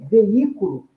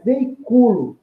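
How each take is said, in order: First: Veículo stressed on the í: ve-Í-cu-lo; veículo with the i as its own strong syllable. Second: Veiculo stressed on cu: ve-i-CU-lo; slow veiculo, leaning on the u. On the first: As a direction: hit the í in veículo, leaving cu weak. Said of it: "não é mais o i". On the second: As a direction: hit CU in veiculo, leaving the i weak. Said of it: "é o u". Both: Shown as a demonstration.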